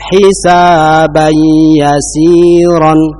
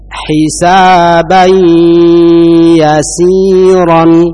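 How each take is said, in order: First: The nasal hum into ya is short. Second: The nasal hum into ya is held long. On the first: The speaker calls it wrong. "jangan hanya sekedar hisaban yasiran. Ya, ini kurang" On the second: The speaker calls it right. "ditahan dengan disertai dengungan"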